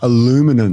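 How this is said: It is said the American way.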